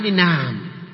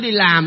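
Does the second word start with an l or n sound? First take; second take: n sound; l sound. First: The second word starts with an n sound. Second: The second word starts with an l sound.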